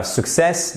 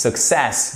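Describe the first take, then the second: First: "success" stressed on the first syllable, SUC-cess; wrong stress. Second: "success" with the stress on the second syllable, suc-CESS; right stress. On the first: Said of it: "C'est pas success". ("success" accentué à tort sur la première syllabe, SUC-cess) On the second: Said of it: "accent tonique sur la seconde syllabe". ("success" avec l'accent sur la seconde syllabe, suc-CESS) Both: Shown as a demonstration.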